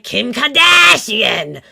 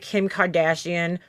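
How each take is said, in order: First: It is said with an exaggerated Boston accent. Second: It is said with a plain, unmarked accent. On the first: "she does this fake Boston accent" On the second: "instead of saying like"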